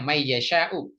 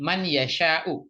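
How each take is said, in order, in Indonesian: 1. Bunyi n menyatu dengan y setelahnya. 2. Bunyi n diucapkan dengan jelas sebelum y. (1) "kalau orang baca menggunakan tajwid biasanya bacanya may yasha'u" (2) "saya pertegas saja menegaskan untuk kajian bahasa saja"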